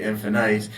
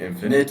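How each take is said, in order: First: It is said the Indian way. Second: It is said the American way.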